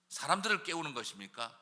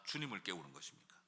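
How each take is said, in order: First: Rising question on 사람들을. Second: 주님을 said low and falling, much softer; quiet answer. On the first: Preacher testing the congregation, rising question. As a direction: ask 사람들을 with a rising, doubting tune. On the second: Preacher answering his own question, low and soft. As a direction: drop the voice on 주님을 as the real answer. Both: Shown as a demonstration. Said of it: "rhetorical contrast pair".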